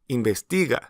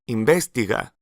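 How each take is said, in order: First: The stress falls on the third syllable. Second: The stress falls away from the third syllable. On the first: The speaker calls it right. "it should be investiga" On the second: The speaker calls it wrong. "may lead you to mispronounce the Spanish verb as investiga"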